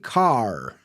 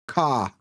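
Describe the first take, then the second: First: An R sound is pronounced after the vowel. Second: No R sound is pronounced after the vowel. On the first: "we don't say car" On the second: "We don't pronounce the R, so it's car"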